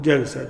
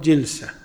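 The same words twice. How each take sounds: First: The first vowel is an 'a' sound. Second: The first vowel is an 'i' sound. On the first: It refers to a single act of sitting. "وإذا أردت المرة تقول جلسة" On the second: It refers to the manner of sitting. "إذا أردت الصفة تقول جلسة"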